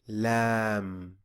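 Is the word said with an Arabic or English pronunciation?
Arabic. It is said with an Arabic pronunciation. The speaker calls it right. "we say lamb"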